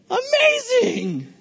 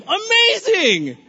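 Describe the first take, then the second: First: Much higher, slow, voice cracking on a cry; cracking high shout. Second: Drawn-out amazing. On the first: Pastor to congregation, high cracking shouted amazing. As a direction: let it break into a high yelp. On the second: Pastor to congregation, slow drawn-out amazing. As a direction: stretch the word slowly with a falling finish. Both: Real, not acted.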